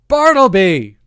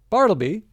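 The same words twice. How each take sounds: First: The name is roared at full volume. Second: The name is called at normal volume.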